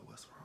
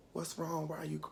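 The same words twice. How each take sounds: First: Barely audible whisper; pained whisper. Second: Higher, softened voice of concern; soft concerned grandmother. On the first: Dying grandmother to crying grandchild, weak whisper. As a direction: whisper it as if too weak to talk. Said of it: "she was whispering because she was in, like, a lot of pain". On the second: Grandmother asking a crying grandchild, soft and concerned. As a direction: gently ask in a higher voice. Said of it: "well, she really wasn't talking". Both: Retold or imitated.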